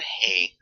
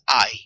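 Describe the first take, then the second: First: It sounds like the English word 'hay'. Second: It sounds like the English word 'eye'. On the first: The speaker calls it wrong. "It's not hay. That's what horses eat" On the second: The speaker calls it right. "This is I... that's how you pronounce this"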